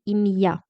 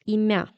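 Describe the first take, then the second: First: The m is followed by a separate y sound. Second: The m is softened and blends into the vowel. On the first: The speaker calls it right. "With it, we really say imya" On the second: The speaker calls it wrong. "without it, it would be imya"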